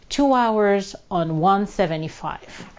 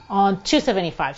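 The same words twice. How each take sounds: First: Said in the usual way. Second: Two said with a firm falling stress; fixing a slip, two landed firmly. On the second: Shown as a demonstration. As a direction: correct the number by leaning on two. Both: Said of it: "sorry, two seventy-five".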